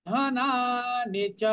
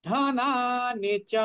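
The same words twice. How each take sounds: The two takes are said the same way.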